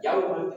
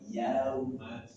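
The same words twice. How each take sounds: First: The word is said with a pressed, forced push. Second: The word flows softly without any pressing push. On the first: The speaker calls it wrong. "jangan dibaca yauma" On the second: The speaker calls it right. "alirkan tanpa ada penekanan"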